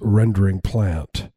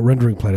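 First: It is said in an affected, distinguished way. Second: It is said in a plain, ordinary way. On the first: The speaker calls it right. "is the way you say it. There's a different kind of affectation" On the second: The speaker calls it wrong. "it's not rendering plant"

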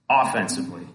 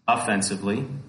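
First: The stress is on the first syllable. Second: The stress is on the second syllable. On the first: It means attacking rather than defending. The speaker calls it right. "as in not defense" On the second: It means in an insulting way. The speaker calls it wrong. "not offensively"

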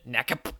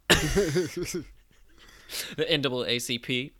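First: The acronym is spoken as a single word. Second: The acronym is spoken letter by letter.

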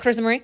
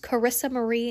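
First: The name is said fast and run together. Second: The name is said slowly and carefully. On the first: Listeners cannot make out the name. The speaker calls it wrong. "if I say it too fast, it's like" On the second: Listeners can understand the name. The speaker calls it right. "I have to say my name like that"

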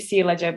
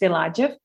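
First: The stress is not on the second syllable. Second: The stress is on the second syllable. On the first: The speaker calls it wrong. "I thought it was maybe Silajev" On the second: The speaker calls it right. "but it's Silajev, I think. On the second syllable"

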